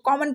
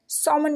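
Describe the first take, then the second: First: The word begins with a k sound. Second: The word begins with an s sound. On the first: The speaker calls it right. "इसलिए इसको कॉमन पढ़ना है" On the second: The speaker calls it wrong. "सॉमन बिल्कुल भी नहीं पढ़ना है"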